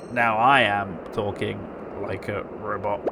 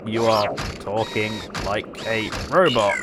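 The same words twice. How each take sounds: First: Slow robot voice, monotone. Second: Said in the usual way. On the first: Shown as a demonstration. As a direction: talk like a flat robot.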